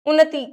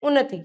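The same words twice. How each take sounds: First: The final vowel is long. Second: The final vowel is short. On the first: The speaker calls it wrong. "उन्नति नहीं" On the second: The speaker calls it right. "जल्दी बोल देते, छोटी ई की मात्रा"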